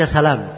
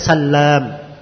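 First: The l sound is single and short. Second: The l sound is doubled and held longer. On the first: "dibaca salam, tidak ditasydid" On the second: "itu dibaca Sallam. Ditasydid lamnya"

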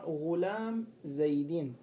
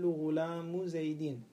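First: The first word ends with no case vowel. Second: The first word ends with a short u vowel. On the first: It is an incomplete restrictive phrase. The speaker calls it right. "غلام حينئذ ليس له إعراب" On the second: It forms a complete sentence with an implied subject. The speaker calls it wrong. "لأنك أعطيت الإعراب لغلام فإنك رفعته"

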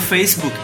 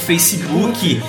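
First: It is said with a native English accent. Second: It is said with a Brazilian Portuguese accent. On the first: "e não Facebook" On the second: "Vocês falam Facebook"

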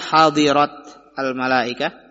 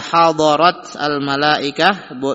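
First: The vowel after the 'd' is 'i'. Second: The vowel after the 'd' is 'a'. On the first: "wa kasriha" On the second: "bi fathi ad-dad"

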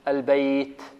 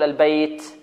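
First: The final t is breathy without any s sound. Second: The final t has a hissing s-like sound. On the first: The speaker calls it right. "لابد من الهمس، لكن الهمس هذا لا يكون مع الهمس صوت السين" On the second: The speaker calls it wrong. "لا يأتي الإنسان فيه برائحة السين يقول البيت، خطأ هذا"

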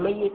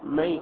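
First: The y sound is doubled and held longer. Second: The y sound is short, not doubled. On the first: Nothing has been dropped from the word. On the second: The weak letter has been dropped from the word.

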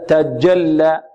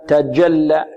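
No difference in how they are said.

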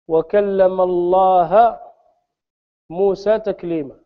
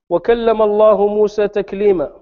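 First: Allah ends in the vowel a, as object. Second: Allah ends in the vowel u, as subject. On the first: Moses spoke to God. The speaker calls it wrong. "نحن نقرأها" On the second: God spoke to Moses. The speaker calls it right. "فما تقول في قوله عز وجل"

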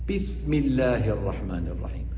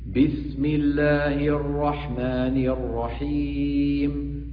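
First: The first consonant is breathy, like p. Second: The first consonant is a plain voiced b. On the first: The speaker calls it wrong. "بي مهموسة، بي يعني وراءها نفس" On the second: The speaker calls it right. "باء هكذا مجهورة"

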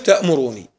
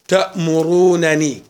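First: Only a single short n is pronounced. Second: Two separate n sounds are pronounced. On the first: "عند الحذف" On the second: "خلنا نقرأ الأولى بالفك"

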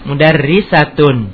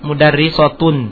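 First: The t is said as a light plain sound. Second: The t is said as a heavy emphatic sound. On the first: The speaker calls it right. "Ta tetap ta" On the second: The speaker calls it wrong.

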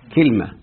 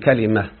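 First: First vowel is i, no vowel after l. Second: First vowel is a, second vowel is i. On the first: "بكسر الكاف وسكون الايه، اللام" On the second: This is the most eloquent form, used in the Quran. "فتح الفاء الكلمة وكسر العين"

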